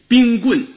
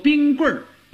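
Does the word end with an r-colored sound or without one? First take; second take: without; r-colored. First: The word ends without an r-colored sound. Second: The word ends with an r-colored sound. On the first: This is the form as it is written. "你写冰棍" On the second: This is the form used in speech. "就得说冰棍儿"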